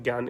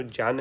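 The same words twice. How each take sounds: First: Said in the usual way. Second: ज्ञान pronounced "jyan"; a j at the start of ज्ञान; pure pronunciation. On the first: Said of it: "सामान्यतः हम ज्ञान इसका". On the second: Shown as a demonstration. Teacher giving the pure pronunciation, ज्ञान as "jyan". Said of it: "शुद्ध जो pronunciation".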